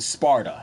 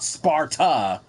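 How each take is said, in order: First: The middle consonant is a D sound. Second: The middle consonant is a T sound. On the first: The speaker calls it right. "It's Sparta with a with a D in the mix" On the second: The speaker calls it wrong. "It's not Spartan like Spartan, you know, with a T"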